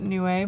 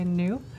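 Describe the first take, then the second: First: The word is not said like 'new'. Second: The word is said like 'new'. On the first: The speaker calls it right. "you're supposed to pronounce it Niue" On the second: The speaker calls it wrong. "I can't help but want to just say new"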